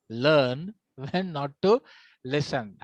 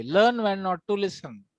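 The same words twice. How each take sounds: First: Very slow, spaced out for the class; slow emphatic repeat. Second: Said in the usual way. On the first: Shown as a demonstration. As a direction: break it into deliberate chunks, dropping on "listen". Maxim repeated slowly for emphasis.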